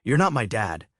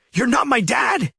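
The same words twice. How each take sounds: First: Sneered. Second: High, loud shrieking yell; teenage son shrieking at stepfather in front of guests; shrieked. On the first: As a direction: sneer You're not my dad at near normal level. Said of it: "he sneered". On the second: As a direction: scream it at your stepfather, much higher and louder. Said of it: "he shrieked". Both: Acted.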